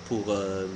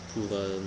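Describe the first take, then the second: No difference in how they are said.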